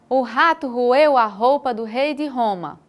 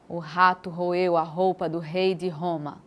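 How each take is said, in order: First: The voice is pitched somewhat higher. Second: The voice is pitched somewhat lower. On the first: "Agora mais fino" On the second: "Um tom mais grosso primeiro"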